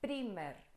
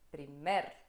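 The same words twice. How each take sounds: First: The stress is on the first syllable. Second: The stress is on the second syllable. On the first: The speaker calls it wrong. "não é primer" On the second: The speaker calls it right. "O mer é mais forte do que o pri"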